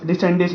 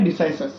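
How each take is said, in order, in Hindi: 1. बीच में 'n' की आवाज़ है, 'de-sen-dis'। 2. बीच में 's' की आवाज़ है, 'di-sai-ses'। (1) "डिसेंडिस नहीं" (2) "क्या बोला जाता है?"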